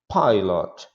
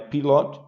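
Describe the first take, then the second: First: The first vowel sounds like 'eye'. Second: The first vowel sounds like 'ee'. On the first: The speaker calls it right. "mas I" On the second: The speaker calls it wrong. "não é pilot"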